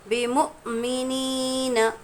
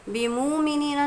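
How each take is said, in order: First: The middle sound has a sharp catch, like hiccuping. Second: The middle sound flows on without a sharp catch. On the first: The speaker calls it right. "हमज़ा साकिना के पढ़ने में झटका होता है" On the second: The speaker calls it wrong. "नहीं पढ़ा जाएगा"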